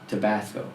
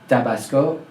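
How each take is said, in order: First: It is said with an English accent. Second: It is said with a French accent. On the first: The speaker calls it right. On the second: The speaker calls it wrong.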